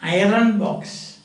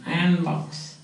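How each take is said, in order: First: Slow "iron box", said eye-run box; rhotic R. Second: "iron box" said eye-un box; no R at all in "iron box"; silent R. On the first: Retold or imitated. Teacher imitating what they say, rhotic R. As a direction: sound the R in "iron box", slowly. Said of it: "They say". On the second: Shown as a demonstration. Teacher correcting the rhotic version for students, silent R. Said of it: "There is no R pronunciation".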